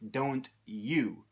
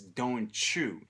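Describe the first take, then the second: First: The t and y sounds are kept separate. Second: The t and y blend into a ch sound. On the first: "why doesn't he say don't you?" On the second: "He says don't you"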